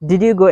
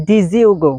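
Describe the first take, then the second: First: Said in the usual way. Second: "Did you" run together as "dizzyoo"; contracted American-style "Did you", like "dizzyoo go"; American short form. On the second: Shown as a demonstration. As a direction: say "Did you go" with a buzzed z sound joining "Did" and "you". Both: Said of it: "এটাকে সংক্ষেপে আমেরিকানরা বলে".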